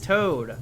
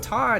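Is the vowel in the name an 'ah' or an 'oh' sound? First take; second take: oh; ah. First: The vowel is a long 'oh' sound. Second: The vowel is a short 'ah' sound. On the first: The speaker calls it right. "It's Toad, dude. His name is Toad" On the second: The speaker calls it wrong. "we thought his name was Todd"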